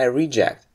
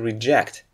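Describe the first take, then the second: First: The stress is on the first syllable. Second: The stress is on the second syllable. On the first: It is a noun. "if you use it as a noun, you stress the first syllable" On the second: It is a verb. "when it turns into a verb, we say to reject"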